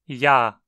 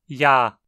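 Both takes have the same delivery.

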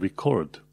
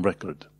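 First: The stress is on the second syllable. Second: The stress is on the first syllable. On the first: It is a verb meaning to capture something. "dacă este cumva verb sau adjectiv, accentul se pune pe a doua silabă" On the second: It is a noun meaning something written down. "dacă e substantiv, accentul se pune pe prima silabă"

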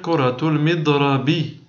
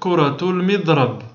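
First: The last word ends in a short vowel. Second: The last word ends in a bare consonant. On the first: This is how it is written. "Alors qu'on va écrire" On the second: This is how it is said in speech. "on va dire"

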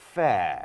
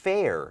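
First: A British-style accent with no final r. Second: An American accent with an e vowel and r. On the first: "ถ้าเป็นสำเนียงแบบไทยๆหรือว่าสำเนียง British นะฮะก็จะเป็น" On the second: "แต่อเมริกันก็จะเป็นสระเอตามด้วยนะครับ"

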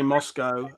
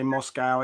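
First: Moscow is said the British way. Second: Moscow is said the American way. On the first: "I say Moscow" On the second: "others say Moscow"

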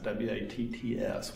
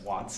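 First: The word is said in a Texas accent. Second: The word is said in a neutral accent.

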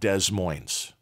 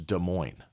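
First: The S sounds in the name are pronounced. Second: The S sounds in the name are silent. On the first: The speaker calls it wrong. "It is not Des Moines" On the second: The speaker calls it right. "And the S's are silent"

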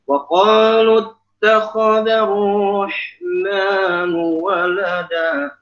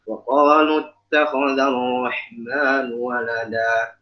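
First: It is recited at a high, raised pitch. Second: It is recited softly at a low pitch. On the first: It sounds as if the reciter enjoys the disbelievers' words. The speaker calls it wrong. "Jangan sampai baca ayat ini dengan nada tinggi" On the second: The reciter distances himself from the disbelievers' words. The speaker calls it right. "jadi kita baca pelan aja"

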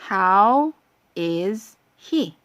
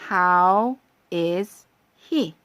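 The two takes are said the same way.

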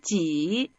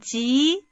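First: The pitch dips low and then rises. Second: The pitch rises from mid to high. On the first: "삼성으로" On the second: "이성으로 한번"

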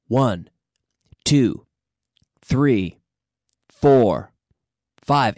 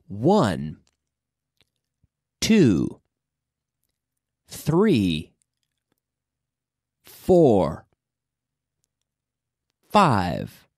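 First: The numbers are counted at a faster pace. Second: The numbers are counted at a slower pace.

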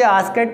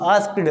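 First: The ending is said as an extra syllable. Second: The ending is said as one syllable. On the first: The speaker calls it wrong. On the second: The speaker calls it right.

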